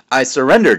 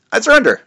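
First: Said in the usual way. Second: High dramatic surrender. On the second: A narrator's reading. First surrender.

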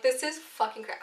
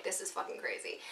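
First: Said in the usual way. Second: Breathy whisper of disbelief; hushed, unvoiced aside to yourself. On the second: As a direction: whisper it under your breath. I was still like.

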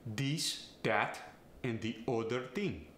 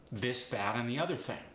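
First: This, that and other said dis, dat, odder; Farsi accent. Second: Said in the usual way. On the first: Shown as a demonstration. Coach demonstrating a Farsi accent, dis, dat and de odder ting. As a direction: Farsi accent with D for every voiced th. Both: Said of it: "replace the T H with either a D or a T".

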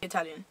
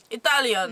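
First: Said in the usual way. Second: Lilting Italian announcement; put-on Italian accent. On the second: Shown as a demonstration.

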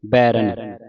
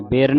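First: ਬੈਰਨ with first syllable "bai"; open "ai" vowel. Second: ਬੇਰਨ as "bay-ran"; wrong closed vowel. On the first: Teacher corrects the mistake, ਬੈਰਨ with open "ai". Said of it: "ਬੈਰਨ ਪੜ੍ਹਨਾ ਹੈ". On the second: Teacher warns congregation, ਬੇਰਨ with closed "e". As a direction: narrow the first vowel of ਬੇਰਨ to "e". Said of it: "ਬੇਰਨ ਨਹੀਂ ਪੜ੍ਹਨਾ". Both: Shown as a demonstration.

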